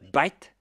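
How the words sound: It starts with a B sound, Indian English.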